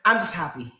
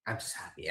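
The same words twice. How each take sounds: First: Said in the usual way. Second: Whispered, much softer; soft unvoiced repeat. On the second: Real, not acted. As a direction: breathe the words out, no voice.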